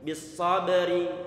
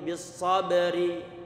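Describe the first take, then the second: The two takes are said the same way.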